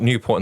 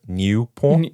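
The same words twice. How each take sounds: First: The name is said with an English accent. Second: The name is said with a French accent. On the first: It names the town in Wales. "not Newport in South Wales" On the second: It names the town in Belgium. "maybe with a French accent"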